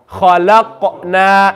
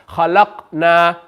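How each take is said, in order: First: The q sound bounces with an echoing release. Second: The q sound is stopped with no echo. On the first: "Can you hear the echo sound?" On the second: "This is how this word sounds without qalqala"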